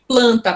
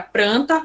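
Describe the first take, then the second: First: The second sound is an L. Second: The second sound is an R.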